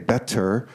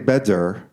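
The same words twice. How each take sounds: First: The middle consonant is a clear T. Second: The middle consonant is a clear D. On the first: "It's not really a T. We don't say better" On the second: "it's not a D. We don't say better, like in David"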